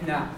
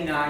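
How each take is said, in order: First: Na with a weak neutral vowel; reduced na. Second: Na with a full clear A; stressed na. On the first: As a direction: let na go weak. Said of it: "you're gonna say na". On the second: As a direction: give na full weight. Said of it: "you're not gonna say na". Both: Shown as a demonstration.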